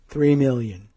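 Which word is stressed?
million. The stress is not on three.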